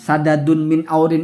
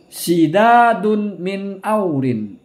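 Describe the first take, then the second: First: The first word starts with the vowel a. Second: The first word starts with the vowel i. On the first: "memfathahkan, membaca fathah makmun itu sina sidadin" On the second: "dia mengkasrohkan huruf sin"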